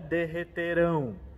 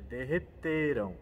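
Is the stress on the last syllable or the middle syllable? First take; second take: last; middle. First: The stress falls on the last syllable. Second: The stress falls on the middle syllable. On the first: It happens in the future. The speaker calls it wrong. "salientar o final da palavra, senão ela fica no futuro" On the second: It happened in the past. The speaker calls it right. "enfatizar o meio da palavra"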